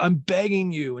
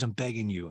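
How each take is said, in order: First: Louder, higher plea, leaning on BEGGING; mock desperate begging, pitched up; insistent pleading. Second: Said in the usual way. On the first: [name] begs Taylor to talk, insistent mock plea.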